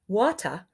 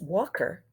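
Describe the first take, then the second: First: The final er sound is left out. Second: The middle sound is k instead of t. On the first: "They're not making that er sound" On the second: "a k instead of t"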